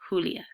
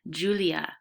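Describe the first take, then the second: First: The name is said with a Spanish accent. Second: The name is said with an English accent. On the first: This is the name as it was originally said. "instead of" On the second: This is how the neighbors said the name. "the neighbors who became my mother's friends pronounced her name"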